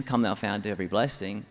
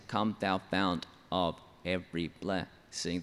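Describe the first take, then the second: First: Said in the usual way. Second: "come thou fount of every blessing" slowly, syllable by syllable; emphasis pattern. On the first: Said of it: "But in another eight-syllable line". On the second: Shown as a demonstration. Songwriter shows a different emphasis structure, slow measured syllable stress. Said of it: "the emphasis structure is different".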